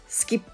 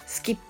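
Both takes have the same delivery.

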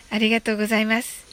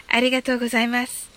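Both takes have the same delivery.

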